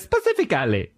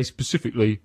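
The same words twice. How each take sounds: First: Put-on Italian accent. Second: Said in the usual way. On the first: Showing how the chef says "specifically", Italian accent. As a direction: make a meal of "specifically", mock Italian. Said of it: "because he's Italian". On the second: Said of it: "he doesn't say specifically".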